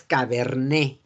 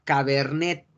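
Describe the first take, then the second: First: "cabernet" slowly, as ca-ber-NÉ; silent T. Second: "cabernet" with the final T sounded; spelling pronunciation. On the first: Teacher giving students the correct form, slow "cabernet" without T. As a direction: end "cabernet" on the vowel, no T. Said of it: "Entonces es cabernet". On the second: Teacher presenting the written word, T audible in "cabernet". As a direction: read "cabernet" as written, closing on T. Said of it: "No se pronuncia la". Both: Shown as a demonstration.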